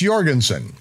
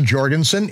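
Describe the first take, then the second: First: The name begins with a y sound. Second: The name begins with a j sound. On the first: The speaker calls it right. "it's Jorgensen" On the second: The speaker calls it wrong. "it's not Jorgensen"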